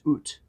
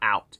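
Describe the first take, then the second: First: It is said with a Canadian 'oot' vowel. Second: It is said with an American vowel.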